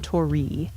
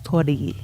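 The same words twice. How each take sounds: First: The r sounds like an English r. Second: The r sounds between an r and l. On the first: The speaker calls it wrong. "It's not tori" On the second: The speaker calls it right. "it's kind of a mix between an L sound"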